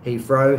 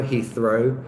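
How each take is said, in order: First: HEATHROW said as "Heefrow"; London-style F in the middle of Heathrow. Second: HEATHROW with a clear TH, tongue between teeth; careful standard TH in the middle of Heathrow; proper TH. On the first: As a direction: swap the TH in Heathrow for an F. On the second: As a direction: say the TH in Heathrow fully, no F. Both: Shown as a demonstration. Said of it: "F rather than T H".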